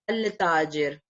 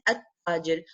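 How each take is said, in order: First: A clear L sound is heard before the T. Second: No L is heard; the T sound is doubled. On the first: "I did not say al-tajir" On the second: "I said at-tajir"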